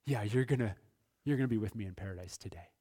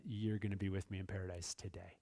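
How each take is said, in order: First: Quick, offhand and softer reassurance; casual Jesus promise. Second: Soft, low, unhurried reverent promise; hushed Jesus promise. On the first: Pastor voicing Jesus casually assuring the thief, quick and soft. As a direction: toss it off fast like a friendly nod. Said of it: "looked at him over here and said". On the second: Pastor voicing Jesus promising the thief paradise, softly. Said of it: "And Jesus said". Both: Retold or imitated.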